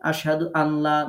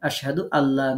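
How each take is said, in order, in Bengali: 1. n ধ্বনিটি l-এর আগে শোনা যায়। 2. n মিশে গিয়ে দ্বিত্ব l ধ্বনি হয়ে যায়। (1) "না পড়ে" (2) "একটা তাসদিদ এখানে কল্পনা করে ... নুন সাকিনটাকে বাদ দিয়ে পড়ব"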